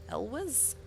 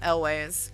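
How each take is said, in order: First: The second syllable sounds like 'wes'. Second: The second syllable sounds like 'ways'. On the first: The speaker calls it wrong. "which definitely didn't sound right" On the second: The speaker calls it right. "that's way better"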